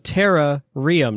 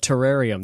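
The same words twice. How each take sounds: First: It begins with 'tera', as in terastalization. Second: It is said like the ordinary word terrarium. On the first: The name comes from terastalization. The speaker calls it right. "it's a Terrarium, not a Terrarium. ... Because of terrastalization" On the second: It names an ordinary glass enclosure. The speaker calls it wrong. "not a Terrarium"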